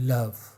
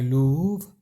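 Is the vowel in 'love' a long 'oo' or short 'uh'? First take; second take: short uh; long oo. First: The vowel is a short 'uh' sound. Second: The vowel is a long 'oo' sound. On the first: It is the word's ordinary pronunciation. "लव और प्रूव में त- वो तुकबंदी नहीं हुआ" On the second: It is changed to rhyme with prove. "उसको कहते हैं लूव"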